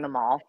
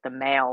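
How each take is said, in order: First: The word is said the American way. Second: The word is said the British way. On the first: "how we say it" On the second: "they say it differently with their accent"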